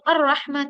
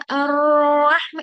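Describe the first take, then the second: First: The sound is hit with a sudden jerk. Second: The sound is held for too long. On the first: "झटका लगा के" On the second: "इतना ज्यादा भी उसको time duration नहीं देते"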